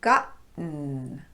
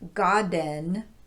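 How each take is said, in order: First: The T is a glottal stop. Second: The T is a quick tapped sound. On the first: The speaker calls it right. "gotten with a glottal stop" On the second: The speaker calls it wrong. "It would seem that the T should be tapped here"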